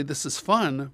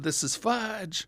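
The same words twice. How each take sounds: First: Said in the usual way. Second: FUDGE stretched slowly, slightly higher and softer; slow slip-up on "fudge"; drawn-out FUDGE. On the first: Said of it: "I went to say". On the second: Retold or imitated. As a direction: let the word fudge hang slowly. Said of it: "but I actually said".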